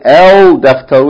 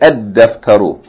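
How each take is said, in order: First: The article keeps its l sound before d. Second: The article's l blends into a doubled d. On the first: The speaker calls it wrong. "so we don't say el daftaru" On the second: The speaker calls it right. "we say ed daftaru"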